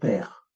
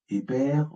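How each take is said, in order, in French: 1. Une voyelle se place entre les deux consonnes. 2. Une voyelle vient avant et entre les consonnes. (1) "On va mettre le E muet entre les consonnes. On va dire père" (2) "Et non pas épère"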